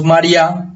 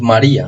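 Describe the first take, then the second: First: MARÍA stressed on the last A, as mar-YÁ; misplaced stress, María said as "mariÁ"; stress on final A. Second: MARÍA stressed on the I, ma-RÍ-a; "María" in three syllables, the í stressed. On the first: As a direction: run "María" into two syllables, punching the final A. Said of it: "con acento acá". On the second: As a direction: put the force on the middle syllable of "María". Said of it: "la fuerza está acá". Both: Shown as a demonstration.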